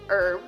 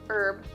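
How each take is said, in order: First: The word begins without an h sound. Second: The word begins with an h sound.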